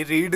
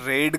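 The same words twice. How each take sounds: First: रीड with a long "ee"; रीड as the base form, vowel "ee"; present-tense "reed". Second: रेड with a short "e", like the colour red; रेड as the past form, vowel "e"; past-tense "red". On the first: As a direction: say रीड to rhyme with need. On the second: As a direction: say रेड to rhyme with bed. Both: Shown as a demonstration. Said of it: "ये रीड नहीं है".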